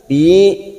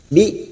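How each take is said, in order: First: The syllable is dragged out long. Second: The syllable is cut off short and crisply. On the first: The speaker calls it wrong. "Tidak boleh diseret" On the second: The speaker calls it right. "Kita membaca harus tegas"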